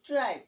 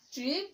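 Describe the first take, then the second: First: ট্রাইপ with an "eye" glide, as in "tripe"; long vowel. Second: ট্রিপ with a short i, as in "trip"; short vowel. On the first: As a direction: say ট্রাইপ with a falling tune. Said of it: "ই যোগে উচ্চারণ". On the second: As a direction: say ট্রিপ with a rising tune. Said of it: "vowel ই ছাড়া উচ্চারণ". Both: Shown as a demonstration.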